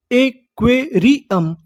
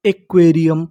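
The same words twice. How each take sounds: First: aquarium slowly, each syllable on its own; slow teaching breakdown of aquarium. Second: Said in the usual way. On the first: Shown as a demonstration. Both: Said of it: "तो meaning क्या बनी".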